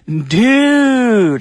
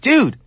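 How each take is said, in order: First: It sounds joyful and congratulating. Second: It sounds like calling out to get attention. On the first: The speaker is happy for a friend's good news. "as a declaration of congratulations or joy" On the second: The speaker wants someone to notice them. "as an attempt to get someone's attention"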